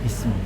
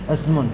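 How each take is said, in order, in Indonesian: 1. Kata ini diawali dengan vokal 'i'. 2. Kata ini diawali dengan vokal 'a'. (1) "maka dibaca kasrah" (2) "Kan aneh kan?"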